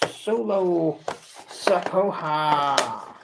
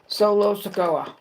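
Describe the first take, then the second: First: The name is said with an added H sound. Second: The name is said without an added H sound. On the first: The speaker calls it wrong. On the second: The speaker calls it right.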